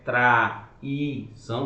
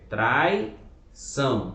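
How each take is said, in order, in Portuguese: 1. O 'a' e o 'i' são separados em duas sílabas. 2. O 'ai' é falado junto, como uma sílaba só. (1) "aqui não é traição" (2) "aqui é uma sílaba só"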